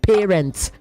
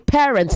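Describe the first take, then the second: First: The first vowel differs from the vowel in pair. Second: The first vowel matches the vowel in pair. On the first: The speaker calls it wrong. "not parents" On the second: The speaker calls it right. "The same sound in pair is the same sound in parent"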